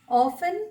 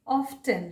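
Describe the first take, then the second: First: "Often" with silent t, off-en; alternative pronunciation. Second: "often" with the t sounded, off-ten; alternative pronunciation. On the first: Teacher showing one accepted "Often", t silent. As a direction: drop the t in "Often". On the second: Teacher showing the other accepted "often", t sounded. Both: Shown as a demonstration. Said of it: "ये दोनों ही उच्चारण".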